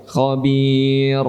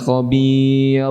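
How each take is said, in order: The two takes are said the same way.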